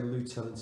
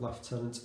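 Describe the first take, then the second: First: It is said the American way, 'loo-tenant'. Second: It is said the British way, 'lef-tenant'. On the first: "I'm going to say lieutenant" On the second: "instead of lieutenant, even though I'm British"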